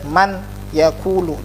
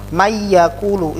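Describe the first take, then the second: First: The n is pronounced clearly before the y. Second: The n merges into the y with no hum. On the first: "Tidak boleh man yaqulu, jelas" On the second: "hanya masuk saja tanpa dengung"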